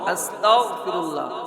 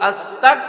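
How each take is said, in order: First: The consonant after 'asta' is a voiced gh sound. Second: The consonant after 'asta' is a hard k sound. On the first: It asks God for forgiveness. The speaker calls it right. "Bangla ঘ উচ্চারণ করবেন" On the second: It asks God to make one an unbeliever. The speaker calls it wrong. "ক উচ্চারণ করেন"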